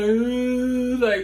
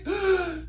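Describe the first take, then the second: First: Breathy, higher gasp of delight; excited gasp. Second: Sharp, high, thrilled gasp; excited gasp. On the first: Fan alone in her room, stunned, excited gasp. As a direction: catch your breath in disbelief. Reliving idol's birthday wish. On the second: Fan hearing from her celebrity crush, excited gasp. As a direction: gasp like you can't believe it. Reacting to celebrity birthday wish. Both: Retold or imitated.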